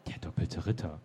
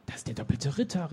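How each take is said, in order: First: Low, soft, incredulous echo; understated, hushed incredulity; mild disbelief. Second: Understated gasp of recognition; surprised exclamation. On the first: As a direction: say it quietly, barely believing it. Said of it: "sagte Henriette ungläubig". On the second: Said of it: "rief sie". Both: A narrator's reading.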